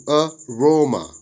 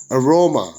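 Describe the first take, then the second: First: "aroma" split as uh, roma; syllable by syllable. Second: Said in the usual way. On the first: Shown as a demonstration. Teacher dividing worksheet words, "aroma" broken into syllables. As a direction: say "aroma" with a gap after the first syllable. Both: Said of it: "syllable division of the words".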